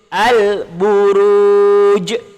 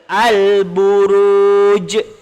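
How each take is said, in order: First: The final j ends with a clear bounce. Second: The same.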